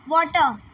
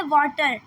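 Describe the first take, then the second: First: British water. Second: वाटर ending in a clear rolled-in "टर" with the r sounded; American water. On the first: Teacher showing students the British वाटर, with the r dropped. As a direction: say वाटर the British way and drop the final r. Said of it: "उसमें टह sound आ रहा है". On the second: Teacher showing students the American वाटर, with the r sounded. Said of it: "तो टर sound आ रहा है". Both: Shown as a demonstration.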